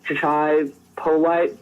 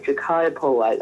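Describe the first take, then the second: First: Jachai with a CH, "juh-CHAI", drawn out slowly before Polite; slow wrong reading of Jachai, CH as in chair; mispronounced name. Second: Jachai with a hard K, "juh-KAI", then Polite; correct pronunciation. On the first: Host showing how they misread the prospect's name, mispronounced with CH. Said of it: "it's not pronounced that way". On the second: Host confirming the prospect's real name, pronounced with a K. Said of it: "That's how you say his name". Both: Shown as a demonstration.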